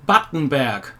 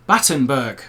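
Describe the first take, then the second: First: BATTENBERG with a German ending, berg as 'bairk'; German pronunciation. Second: BATTENBERG with an English ending, berg as 'burg'; English pronunciation. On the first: Naming a cake missing from his German list, German pronunciation of Battenberg. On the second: Giving viewers what the English say, English pronunciation of Battenberg. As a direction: say Battenberg the English way, rhyming with iceberg. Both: Shown as a demonstration. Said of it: "or as the English say".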